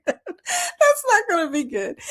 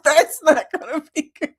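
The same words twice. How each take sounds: First: Higher, giggling repeat; laughing harder. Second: Laughing, a bit higher; amused at herself. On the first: Repeating the joke to viewers, laughing harder. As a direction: laugh it out even more. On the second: Telling viewers about a solo anniversary trip, laughing. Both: Real, not acted.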